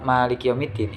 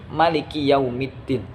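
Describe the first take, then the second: First: The vowel after the m is long. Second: The vowel after the m is short. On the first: This is one accepted canonical reading. "membaca panjang mim" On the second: This is another accepted canonical reading. "dengan qasar"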